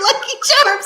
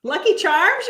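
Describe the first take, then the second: First: High, laughing mock yell. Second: Said in the usual way. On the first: Shown as a demonstration. Woman suggesting a cereal catchphrase to her friend, high laughing yell. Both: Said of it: "Why don't you just start yelling".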